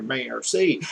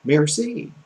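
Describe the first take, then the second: First: "merci" in a hickish country accent; "merci" lower and softer, with a country accent. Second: "merci" as "mair-see", without the country accent; "merci" in careful French, rising on the second syllable; corrected French merci. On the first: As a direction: say "merci" with a Southern country twang. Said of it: "I heard my own country accent there". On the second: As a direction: say "merci" carefully, lifting at the end. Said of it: "No, it's". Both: Shown as a demonstration.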